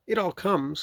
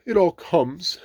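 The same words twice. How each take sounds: First: High-voiced stern rabbit. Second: High, loud cross bear. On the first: Rabbit lecturing stuck Pooh, stern. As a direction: reprove in a high character voice. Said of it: "said Rabbit sternly". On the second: Pooh blaming the small front door, cross. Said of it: "said Pooh crossly". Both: A narrator's reading.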